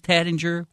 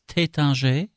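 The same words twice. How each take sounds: First: It is said in a Southern American accent. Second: It is said with a French pronunciation. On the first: "[name]'s having fun with the Southern accent thing" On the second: "It's Tattinger in French"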